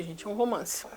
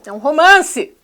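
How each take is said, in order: First: Muttered, much softer "romance"; dry aside. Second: Loud, higher "É um romance!" with falling end; sarcastic exclaim. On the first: Vlogger muttering sarcastically to viewers, quiet aside. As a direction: say "é um romance" under your breath, deadpan. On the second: Vlogger mocking the film to viewers, loud sarcastic cry. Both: Real, not acted.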